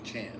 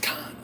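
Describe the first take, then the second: First: The name begins with a ch sound. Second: The name begins with a k sound. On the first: The speaker calls it wrong. "I kept saying Chan" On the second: The speaker calls it right. "mister Chris is like, it's Khan"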